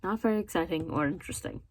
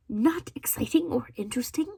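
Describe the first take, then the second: First: Said in the usual way. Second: Raised pitch, questioning disbelief; incredulous echo. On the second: Real, not acted. Quoting a reviewer's verdict back, incredulous. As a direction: throw the words back as a question.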